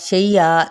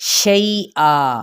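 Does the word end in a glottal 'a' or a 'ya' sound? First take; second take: ya; glottal a. First: The word ends with a gliding 'ya' sound. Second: The word ends with a glottal catch and 'a'. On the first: The speaker calls it wrong. "हम लोग कैसे पढ़ देते हैं ... तो ये गलत है" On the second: The speaker calls it right. "ठीक है"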